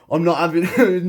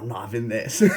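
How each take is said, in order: First: Louder, higher, fired-up refusal; he won't let his pupil beat him; defiant outburst. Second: Softer, laughing through it; laughing retort. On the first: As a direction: burst out in competitive defiance. Competitive retort to friend. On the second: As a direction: giggle out the refusal. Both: Retold or imitated.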